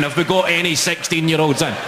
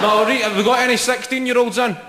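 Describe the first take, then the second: First: Mild mock shout, near normal pitch; retold shout. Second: High, projected crowd call; shouting to the crowd. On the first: Comic repeating his question to the audience, mildly mocking his shout. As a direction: quote your own shout, only half projected. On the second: Real, not acted. Comic asking the audience for sixteen-year-olds, shouting out. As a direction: call it out to the back of the room. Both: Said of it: "when you hear yourself shouting".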